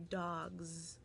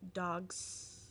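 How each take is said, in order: First: The word ends in a voiced z sound. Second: The word ends in a voiceless s sound. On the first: The speaker calls it right. "it would really end in a Z sound" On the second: The speaker calls it wrong. "because that's a little awkward"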